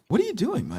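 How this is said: The question sounds curious and genuinely interested. The asker genuinely wants to know what is being done. The speaker calls it right. "I'll be more inquisitive about it"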